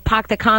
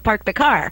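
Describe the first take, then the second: First: It is said in a New York accent. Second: It is said in a Los Angeles accent. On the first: "if you're in New York" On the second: "if you're in L A"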